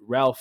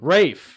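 First: The name is said with an L sound. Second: The name is said without an L sound. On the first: The speaker calls it wrong. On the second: The speaker calls it right.

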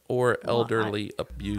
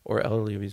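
First: The words are said slowly and distinctly. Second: The words are mumbled and run together. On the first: "kind of slow down and be like" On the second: "I mumble it. Like"

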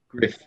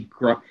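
First: The vowel sounds like the one in 'cliff'. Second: The vowel sounds like the one in 'cuff'. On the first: It is said the way the owner says it. The speaker calls it right. "but I think it's Griff" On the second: It is said the way it is spelled. The speaker calls it wrong. "Might be Gruff. It's spelt Gruff"

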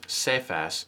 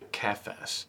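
First: The name begins with a soft S sound. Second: The name begins with a hard K sound. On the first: "for the S sound" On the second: "If it was a K, that would be like that harder K sound"

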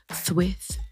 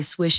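First: The s sounds are lisped like th. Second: The s sounds are clear hissing sounds.

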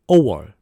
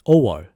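Both takes have the same delivery.

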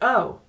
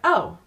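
First: It is said with sudden surprise. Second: It is said flatly, without surprise.

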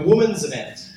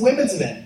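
First: The first word sounds like singular 'woman's'. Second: The first word sounds like plural 'women's'. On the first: It is how New Zealanders say it. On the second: It is how the speaker's own community says it.

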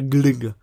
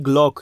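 First: The vowel sounds like Polish y. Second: The vowel sounds like o. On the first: The speaker calls it right. "a glyg. Tak, to jest jego poprawna wymowa" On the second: The speaker calls it wrong. "Nie glok"

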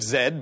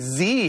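First: The letter is said as 'zed'. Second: The letter is said as 'zee'. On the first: This is the British way of saying the letter. "You say Lost City of Zed" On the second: This is the American way of saying the letter. "but we say Z here in the United States"

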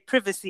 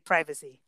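First: The word is said with a British pronunciation. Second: The word is said with an American pronunciation. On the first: This is how the other person says it. "You ended up in the UK, ... You say privacy" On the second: This is how the speaker says it. "I ended up in America. ... I say privacy"

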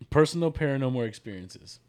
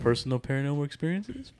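First: It ends with falling pitch, like a statement. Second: It ends with rising pitch, like a question.

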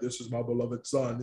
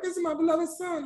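First: The voice is low and deep. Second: The voice is high-pitched. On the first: The speaker calls it right. "you always think God has this deep voice" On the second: The speaker calls it wrong. "with a high pitch going like"

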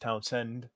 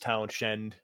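First: The middle is said with a plain 's' sound. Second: The middle is said with an 'sh' sound. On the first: The speaker calls it right. "but it's pronounced Townsend" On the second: The speaker calls it wrong. "Spelled Townshend"

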